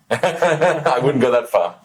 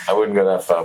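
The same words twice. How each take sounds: First: Laughing through the words, slowed. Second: Said in the usual way. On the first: Real, not acted. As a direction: chuckle it out, bashful. Modest reply to a compliment.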